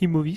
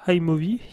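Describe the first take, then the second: First: The name is pronounced the French way. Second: The name is pronounced the English way. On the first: "à la française" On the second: "à l'anglaise"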